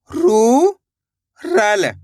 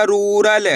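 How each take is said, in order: First: रू, pause, then रल; read in two parts. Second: Said in the usual way. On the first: Shown as a demonstration. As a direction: separate रू from रल, raised long "roo". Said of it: "दो दो करके ही पढ़ सकते हो". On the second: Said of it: "तो मिलके बन जाएगा".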